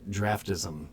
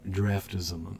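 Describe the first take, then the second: No difference in how they are said.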